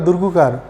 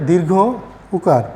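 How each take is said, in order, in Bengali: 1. শব্দটি একসঙ্গে জড়িয়ে একটি ছোট শব্দ হয়ে যায়। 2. শব্দটির দুটো অংশই পূর্ণভাবে বলা হয়। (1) "অনেকে বলে দুর্গুকার, এটাও হলো না" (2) "বলতে হবে দীর্ঘ উকার"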